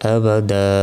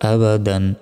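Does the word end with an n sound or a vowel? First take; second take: vowel; n sound. First: The word ends on a long vowel. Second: The word ends with an n sound. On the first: The reciter stops at this word. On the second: The reciter continues without stopping.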